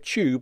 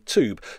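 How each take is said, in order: First: It is said with a British 'tyoob' sound. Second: It is said with an American 'toob' sound. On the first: "people in the UK pronounce the U in the word tube" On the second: "whereas in the US they say tube"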